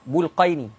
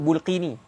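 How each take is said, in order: First: The second syllable has an 'ai' diphthong. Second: The second syllable has a plain 'ee' vowel. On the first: The speaker calls it right. "Sebenarnya baca Bulqaini" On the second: The speaker calls it wrong. "orang setengah sebut Bulqini"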